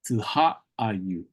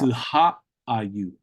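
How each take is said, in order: First: The word is said with an h sound. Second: The same.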